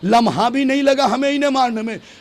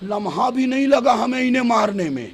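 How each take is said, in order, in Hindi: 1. यह ऊँची आवाज़ और खिताबती (भाषण वाले) अंदाज़ में बोला गया है। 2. यह सादे, बातचीत वाले अंदाज़ में बोला गया है।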